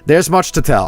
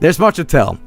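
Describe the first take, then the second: First: It is said in a put-on Dark Elf voice. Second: It is said in a normal voice.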